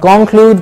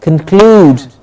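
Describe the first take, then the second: First: Conclude as "CON-clude", heavy first syllable; wrong stress. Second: Conclude as "cun-CLUDE", stress on CLUDE; right stress. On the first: Teacher showing the wrong conclude, stress on CON. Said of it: "Not conclude". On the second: Teacher modelling the correct conclude, stress on CLUDE. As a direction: reduce "con", hit CLUDE in conclude. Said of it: "but con-, conclude". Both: Shown as a demonstration.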